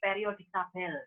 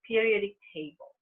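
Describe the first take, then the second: First: Table is pronounced like the Indonesian word tabel. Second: Table is pronounced the English way. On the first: The speaker calls it wrong. "No way" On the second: The speaker calls it right. "still you have to say periodic table"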